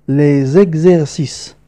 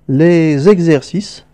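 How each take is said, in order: Both takes have the same delivery.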